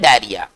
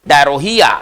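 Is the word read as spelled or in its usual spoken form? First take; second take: usual form; as spelled. First: It is said in its short, usual spoken form. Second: It is read out following every written letter. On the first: "लेकिन इसको हिंदी में पढ़ते हैं" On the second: "double R H O E डायरोहिया"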